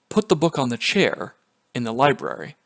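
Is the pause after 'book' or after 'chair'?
after chair. There is a pause after 'chair'.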